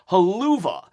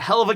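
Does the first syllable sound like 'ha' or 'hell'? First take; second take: ha; hell. First: It is said as 'haluva' with a 'ha' vowel. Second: It is said as 'hell of a'. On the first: The speaker calls it wrong. "he read it as haluva" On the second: The speaker calls it right. "it's a hell of a kick"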